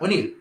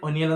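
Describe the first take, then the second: First: The name is said as Onil, two syllables. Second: The name is said as Oniyal, three syllables. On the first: The speaker calls it right. "ഒനിയലല്ല ഒനിൽ എന്നാണ്" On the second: The speaker calls it wrong. "ഒനിയൽ ഒനിയൽ എന്നാണ് പറയുന്നത്"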